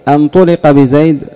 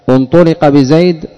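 No difference in how they are said.

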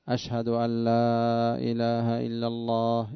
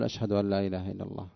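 First: The phrase is said in a full, raised voice. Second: The phrase is said in a low, quiet voice. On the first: "ثم يعيدها بالصوت المعتاد" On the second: "هذه الآن صوت منخفض"

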